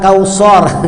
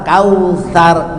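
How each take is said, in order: First: The middle consonant is a heavy emphatic s. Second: The middle consonant is a soft th sound. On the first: The speaker calls it wrong. "bukan kausor" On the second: The speaker calls it right. "jadi kausa asa dekat ujung lidah"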